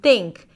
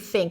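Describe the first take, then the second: First: The word starts with a T sound. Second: The word starts with a TH sound. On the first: The speaker calls it wrong. "your habit is to pronounce the T sound every time there is a T H" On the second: The speaker calls it right. "instead of"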